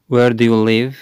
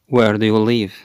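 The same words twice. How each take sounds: The two takes are said the same way.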